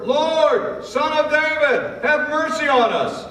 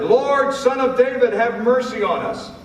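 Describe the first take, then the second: First: Very high, loud, slower desperate cry; louder shouted plea. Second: Shouted plea. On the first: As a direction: shout it even harder than before, begging. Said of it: "they shouted all the louder". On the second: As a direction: call out over the crowd, pleading. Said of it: "they shouted". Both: Acted.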